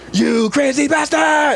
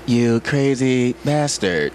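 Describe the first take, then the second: First: It is said with strong, dramatic emotion. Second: It is said more plainly, without strong emotion.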